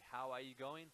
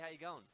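First: Every word is said fully and separately. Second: The words are clipped and run together.

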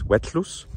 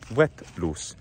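First: The t and l merge into one lateral release. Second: The t and l are said as separate sounds.

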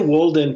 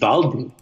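First: The name has an English pronunciation. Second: The name has a German pronunciation. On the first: It suggests the famous American book. "If you say Walden, people will assume it's about Thoreau" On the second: It fits the film's Austrian origin. "this is the movie must have been made in Austria, so it would just be Walden"

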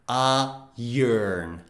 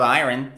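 First: The word is said in the accepted pronunciation. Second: The word is said in the rejected pronunciation. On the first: The speaker calls it right. "It is iron" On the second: The speaker calls it wrong. "Nope, it's not iron"

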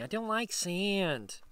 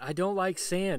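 First: The voice is strongly whiny and complaining. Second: The voice is only slightly whiny. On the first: "I should do it more whiny" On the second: "That's my Anakin"

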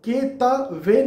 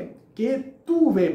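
First: The second syllable has the vowel 'a'. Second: The second syllable has the vowel 'u'. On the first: The speaker calls it wrong. "के त वे ना बोले" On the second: The speaker calls it right. "केतु वे बोले"

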